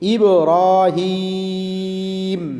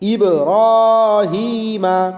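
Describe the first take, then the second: First: The word ends on the consonant 'm'. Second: The word ends with a final 'a' vowel. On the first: The reader stops at this point. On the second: The reading continues without stopping.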